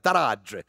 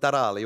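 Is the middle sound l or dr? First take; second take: dr; l. First: The middle consonant is dr, Calabrese dialect. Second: The middle consonant is a plain l.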